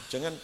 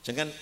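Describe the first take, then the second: No difference in how they are said.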